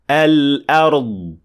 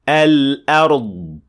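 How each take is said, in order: Both takes have the same delivery.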